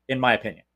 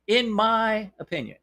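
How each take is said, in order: First: Said in the usual way. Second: Pitched-up, teasing repeat of the disclaimer; mock emphatic hedge. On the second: Shown as a demonstration. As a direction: say it again like a wink to the lawyers. Repeats hedge, higher mock take.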